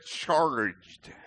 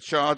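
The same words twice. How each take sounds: First: The word is said in a non-British accent. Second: The word is said in a British accent. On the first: The speaker calls it right. "I should have said charged" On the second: The speaker calls it wrong. "I probably said it in my British accent"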